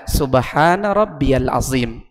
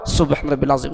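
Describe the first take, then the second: First: It is said slowly with every word clear. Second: It is said fast with words run together. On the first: The speaker calls it right. "Tepatkan bacaan anda pada wirid dan zikir anda" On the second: The speaker calls it wrong. "walaupun tiga kali tapi tidak terlalu jelas"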